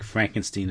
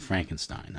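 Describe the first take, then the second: First: "Frankenstein" ending in "steen"; "Frankenstein" rhyming its ending with "seen"; steen pronunciation. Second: "Frankenstein" ending in "stine"; "Frankenstein" rhyming its ending with "mine"; stine pronunciation. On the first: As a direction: say "Frankenstein" with a long ee in the last syllable. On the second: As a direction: say "Frankenstein" with a long i in the last syllable. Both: Shown as a demonstration. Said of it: "However you want to pronounce it".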